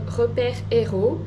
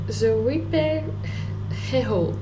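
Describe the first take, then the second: First: The name is said in a French accent. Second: The name is said in an English-style accent.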